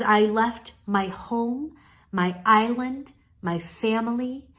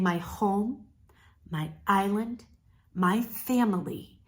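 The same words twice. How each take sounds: First: Slow, with a short pause after home and after island; pauses between phrases. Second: Softer, with a held home and a clear pause before island and before family; pauses between phrases. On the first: Coach showing the pause, slow and deliberate. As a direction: let each of home, island, family land on its own. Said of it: "brief enough that you're giving that emphasis". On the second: Coach repeating the line softly, pausing. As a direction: space the three phrases apart. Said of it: "where you're saying". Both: Shown as a demonstration.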